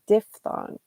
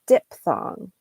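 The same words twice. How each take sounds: First: The middle consonant is pronounced as an F. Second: The middle consonant is pronounced as a P. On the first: The speaker calls it right. "So the P H is sound is sounds like an F" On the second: The speaker calls it wrong. "They'll just take out that P H"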